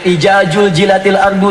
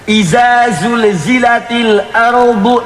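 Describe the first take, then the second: First: The first word's consonant is a j sound. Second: The first word's consonant is a z sound. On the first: "ada yang" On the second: "Ada yang baca pakai za"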